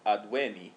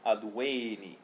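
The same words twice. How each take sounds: First: The e vowel is held short. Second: The e vowel is held long. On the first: It is the present stem. "the present stem of advenire is adven, adveni, with a short e" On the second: It is the perfect stem. "The perfect stem of advenire is adveni"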